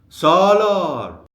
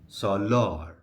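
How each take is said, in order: First: The stress is on the first syllable. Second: The stress is on the last syllable. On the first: The speaker is calling to the person. "shift the stress to the very beginning" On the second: The speaker is just naming the person. "the stress falls on the last syllable"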